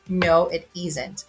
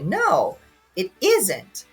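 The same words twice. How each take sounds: First: The answer is said plainly, without extra stress. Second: The answer is said with strong stress. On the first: The speaker agrees with what was said. "I agree with you" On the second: The speaker disagrees with what was said. "So I disagree with you"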